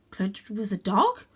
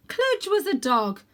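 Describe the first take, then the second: First: Cludge was a dog? rising on dog; questioning. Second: Cludge was a dog as a falling realisation; realising. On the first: Cat doubting his own realisation, rising. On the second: Cat realising his friend is a dog, falling. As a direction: land on dog with a fall. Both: A narrator's reading. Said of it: "repeated as question".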